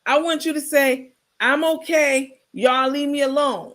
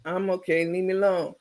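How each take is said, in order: First: [name]'s demo line. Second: No conviction. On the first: Shown as a demonstration. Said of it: "Let me hear you try it". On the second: Retold or imitated. [name] repeating [name]'s line, flat and lifeless. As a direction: mumble it without meaning it. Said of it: "You gotta say it with some sense".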